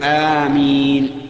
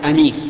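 First: The first vowel is long and the m is single. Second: The first vowel is short and the m is single. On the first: It is a plea asking God to answer. The speaker calls it right. "بل يقول آمين" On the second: It is an adjective meaning safe or trustworthy. The speaker calls it wrong. "ولا يصح أن تقول أمين، لأن أمين صفة مشبهة من الأمن"

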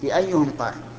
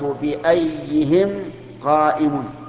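First: The word ends its stem with a 'u' vowel. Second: The word ends its stem with an 'i' vowel. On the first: The word is treated as fixed in form. The speaker calls it right. "الصواب بأيهم قائم ... مبنية على الضم" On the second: The word is treated as declined for case. The speaker calls it wrong. "مررت بأيهم قائم خطأ"

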